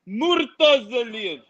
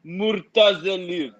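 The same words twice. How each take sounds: First: Murtazaliyev slow and a bit higher, each syllable stressed; slow emphatic pronunciation. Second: Murtazaliyev drawn out slowly, moor-ta-za-li-yev; slow demonstration of Murtazaliyev; slow pronunciation. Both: Shown as a demonstration. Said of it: "give you an example by pronouncing Khalid's last name".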